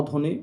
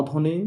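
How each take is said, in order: Both takes have the same delivery.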